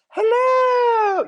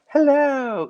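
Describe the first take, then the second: First: It is said loudly and exuberantly. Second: It is said quietly and demurely.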